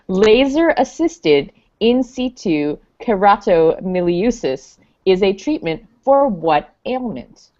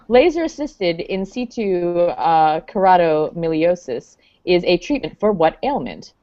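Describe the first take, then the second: First: The question is read at a slower pace. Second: The question is read at a quicker pace.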